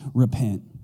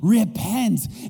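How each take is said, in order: First: It is said gently and lovingly. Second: It is yelled angrily.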